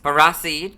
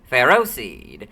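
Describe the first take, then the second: First: The name begins with a sound like 'for raw'. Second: The name begins with a sound like 'pharaoh'. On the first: This is the official pronunciation. "I dislike its official pronunciation" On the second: This is the pronunciation the speaker is used to. "I'm much more used to saying Pharaoh seed"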